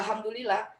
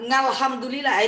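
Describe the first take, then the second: First: The word begins directly with a vowel. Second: The word begins with a nasal ng sound. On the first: The speaker calls it right. "tetap aja alhamdulillah" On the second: The speaker calls it wrong. "ngalhamdulillah itu salah"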